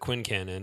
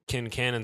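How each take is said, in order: First: The name begins with a KW sound. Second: The name begins with a plain K sound. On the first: The speaker calls it wrong. "I've always said it Quincannon" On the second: The speaker calls it right. "everybody in this episode says Kincannon"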